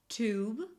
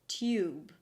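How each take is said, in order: First: The vowel is a plain oo sound. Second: A y sound comes before the oo. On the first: "either with oo" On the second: "with a y sound before"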